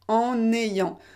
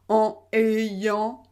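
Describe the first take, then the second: First: The n sound links into the next vowel. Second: The two words stay separate with no n link. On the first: The speaker calls it right. "vous devez bien faire la liaison" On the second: The speaker calls it wrong. "si vous ne faites pas la liaison"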